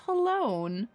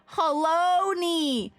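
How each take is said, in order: First: The name does not rhyme with baloney. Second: The name rhymes with baloney. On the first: The speaker calls it wrong. "I was like, oh, it's halone" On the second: The speaker calls it right. "Like baloney"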